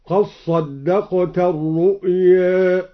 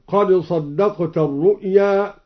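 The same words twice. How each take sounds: First: Slowly, "الرؤيا" ending between aa and ee; merged dal, tilted vowel. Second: Said in the usual way. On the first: Shown as a demonstration. Reciter showing Al-Duri, "قد صدقت" merged, "الرؤيا" tilted. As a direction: chant "قد صدقت" as "qas-saddaqta", dal merged into sad. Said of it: "بإدغام الدال في الصاد وقلل الرؤيا".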